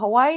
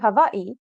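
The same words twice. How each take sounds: First: Hawaii is said the common English way. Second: Hawaii is said the native Hawaiian way. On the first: The speaker calls it wrong. "it's not Hawaii" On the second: The speaker calls it right. "it's actually Hawaii"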